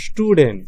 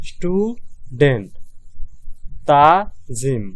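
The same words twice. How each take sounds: First: Said in the usual way. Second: Slow, syllable-by-syllable student, stu-dent; split into syllables. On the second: Shown as a demonstration. Teacher showing students the two syllables, slow split. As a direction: break student into its two parts slowly. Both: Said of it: "দুইটা উচ্চারিত হইতেছে".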